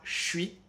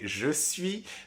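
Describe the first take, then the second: First: The words merge into one short reduced syllable. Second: Both words are said fully and separately. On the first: This is the usual casual spoken form. "le S disparaît et est remplacé directement par juste ce che" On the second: This is the careful form, rare in casual speech. "en langue orale informelle est très rarement prononcé je suis"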